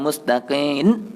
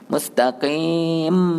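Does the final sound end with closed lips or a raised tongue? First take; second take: raised tongue; closed lips. First: The word ends with the tongue raised, an n sound. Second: The word ends with the lips closed, an m sound. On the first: The speaker calls it wrong. "bukan mustaqim. Nun, nun lah. Jadi lidah naik ke atas" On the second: The speaker calls it right. "Lidah duduk bawah"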